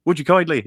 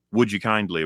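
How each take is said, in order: First: Would you kindly, pitched higher and louder; playful Atlas impression; imitating Atlas. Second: Said in the usual way. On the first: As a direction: lift it into a coaxing command. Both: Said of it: "Atlas gave you a command".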